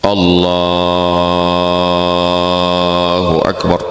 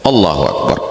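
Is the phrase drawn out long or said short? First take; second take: long; short. First: The phrase is drawn out long and slow. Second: The phrase is said short and quick.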